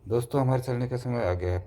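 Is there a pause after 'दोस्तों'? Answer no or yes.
no. There is no pause after the first word. It is unclear who is being addressed. The speaker calls it wrong. "कुछ clear नहीं हो रहा है"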